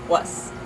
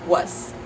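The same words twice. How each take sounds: First: The word ends with a voiceless S sound. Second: The word ends with a voiceless S sound.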